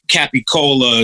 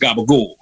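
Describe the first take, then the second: First: It is said fully as capicola, with a clear final vowel. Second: It is said as gabagool, with the final vowel dropped. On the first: "because it's not really pronounced that way, but in America, it's all bastardized" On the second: "Capicola is pronounced gabagool"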